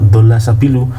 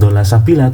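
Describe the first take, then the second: First: The last word ends with a 'u' vowel. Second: The last word ends with an 'a' vowel. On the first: The speaker calls it right. "tapi dola sabilu" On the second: The speaker calls it wrong. "ini bukan dola sabila"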